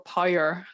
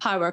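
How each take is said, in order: First: It has a strong Northern Irish accent. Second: It has a mild Northern Irish accent.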